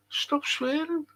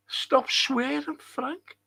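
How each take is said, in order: First: High, hushed mimicked reprimand; mocking scold. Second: High, soft mimicked telling-off; mocking scold. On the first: Streamer mimicking a complaint about his language, mock scolding. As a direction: echo the complaint softly in a raised pitch. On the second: Streamer echoing whoever tells him off, mock scolding.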